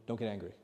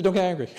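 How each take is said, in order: First: Low, soft retold answer; calm repeated advice. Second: Louder, higher retold instruction; emphatic advice. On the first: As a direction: answer the eager questioner quietly and lower. Retold answer, repeated calmly after questioner. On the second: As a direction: drive the advice home. Retold advice, first emphatic take.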